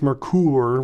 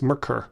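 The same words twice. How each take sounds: First: The second syllable has a long oo vowel. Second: The second syllable has a short vowel. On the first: The speaker calls it wrong. "I don't think it's Merkur with a long O O sound" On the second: The speaker calls it right. "but I think it's Merkur"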